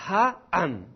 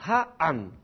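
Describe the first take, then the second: The two takes are said the same way.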